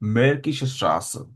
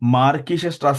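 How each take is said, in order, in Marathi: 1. पहिला स्वर 'eh' आवाज आहे. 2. पहिला स्वर खुला 'ah' आवाज आहे. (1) "ए असल्यामुळे आपण कसा उच्चार करणार त्याचा?" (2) "मार्किश स्ट्रास नाही बोलणार"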